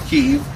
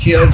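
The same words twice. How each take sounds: First: The name is said as one syllable, Keev. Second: The name is said as two syllables, Kee-ev. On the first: This is the current Ukrainian form of the name. The speaker calls it wrong. "not Kiev" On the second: This is the traditional Russian form of the name. The speaker calls it right. "that's the original Russian pronunciation"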